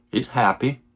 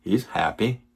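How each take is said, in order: Both takes have the same delivery.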